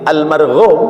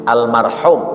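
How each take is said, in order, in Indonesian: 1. Huruf r diikuti bunyi gh. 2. Huruf r diikuti bunyi h tenggorokan. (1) "Kalau pakai ghin" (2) "pakai ha"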